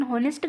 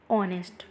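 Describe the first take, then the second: First: होनेस्ट with a sounded h at the start; wrong h. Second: ऑनेस्ट begun straight on the vowel, no h; silent h. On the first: Teacher showing students the wrong होनेस्ट with h. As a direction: say होनेस्ट with a breathy h first. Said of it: "गलत हो जाएगा यहाँ पे". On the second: Teacher giving students the correct ऑनेस्ट. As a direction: drop the h: ऑनेस्ट. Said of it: "ऑनेस्ट, एन". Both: Shown as a demonstration.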